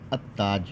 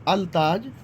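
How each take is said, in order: First: The l merges into a doubled t sound. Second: A clear l sound comes before taj. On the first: The speaker calls it right. "आप इसको पढ़ेंगे अत्ताज" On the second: The speaker calls it wrong. "अल ताज नहीं होगा"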